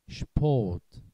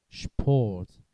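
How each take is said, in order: Both takes have the same delivery.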